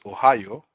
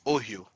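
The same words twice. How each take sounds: First: It uses the usual American pronunciation. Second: It uses a non-American pronunciation. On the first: The speaker calls it wrong. "you guys pronounce Ohio" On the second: The speaker calls it right. "it's pronounced Ohio"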